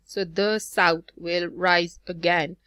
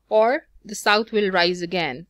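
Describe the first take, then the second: First: Slow, the south will rise again with south, rise and gain punched; iambic stress beat. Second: Said in the usual way. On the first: Shown as a demonstration. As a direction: tap out each da-DUM of the south will rise again, slowly. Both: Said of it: "The is going to be unstressed".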